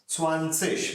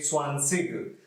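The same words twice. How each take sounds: First: The word ends with a soft ish sound. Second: The word ends with a hard g sound. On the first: "it is pronounced as ish" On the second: "So G is also correct"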